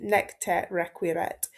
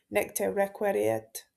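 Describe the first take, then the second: First: Slow, careful "requiret" as "rek-wee-ret"; careful retake of "requiret" without the extra syllable; corrected Latin pronunciation. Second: Slow Latin with "requiret" garbled, an extra syllable before the final t; mispronounced Latin. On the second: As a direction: stumble "requiret" into "rek-WEH-ree-et". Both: Real, not acted. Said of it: "terrible pronunciation".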